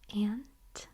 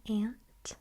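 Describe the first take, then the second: No difference in how they are said.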